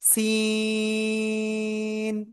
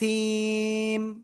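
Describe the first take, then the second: First: The syllable ends with an n sound. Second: The syllable ends with an m sound. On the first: The speaker calls it wrong. "এটা বলবো নাকি সিম, কোনটা বলবো?" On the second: The speaker calls it right. "মিমের উপরে তারডিদ রয়েছে তাহলে এইটার সাথে আমরা সংযুক্ত করব সিম"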